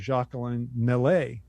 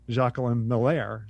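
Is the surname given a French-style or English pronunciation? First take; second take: French-style; English. First: The surname is given a French-style pronunciation. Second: The surname is given a plain English pronunciation. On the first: The speaker calls it wrong. "we were trying to pronounce it a la française" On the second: The speaker calls it right. "his name is Jacqueline Miller"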